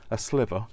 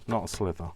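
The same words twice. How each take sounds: First: "sliver" said with a clear v, louder and corrected; stressed correction. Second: "slither" said with a th sound as the wrong one; wrong word named. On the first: Crafter correcting her own word mix-up to viewers, stressing "sliver". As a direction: land firmly on "sliver" with a v sound, not "slither". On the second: Crafter contrasting the wrong word "slither" for viewers. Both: Shown as a demonstration.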